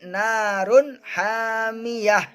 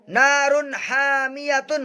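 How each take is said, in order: First: The last word ends with an 'h' sound. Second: The last word ends with a 'tun' sound. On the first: The reader stops at this point. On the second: The reading continues without stopping.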